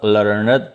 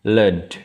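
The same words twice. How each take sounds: First: The ending is a separate ed syllable. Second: The ending is a plain d sound. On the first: The speaker calls it wrong. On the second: The speaker calls it right. "bunyi d"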